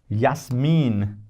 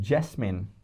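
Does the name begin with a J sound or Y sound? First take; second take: Y sound; J sound. First: The name begins with a Y sound. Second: The name begins with a J sound. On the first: The speaker calls it right. "if you say Yasmin" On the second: The speaker calls it wrong. "you don't call it Jasmine"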